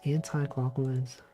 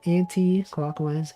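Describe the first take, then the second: First: The end of 'anti' sounds like 'eye'. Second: The end of 'anti' sounds like 'ee'. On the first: "versus I"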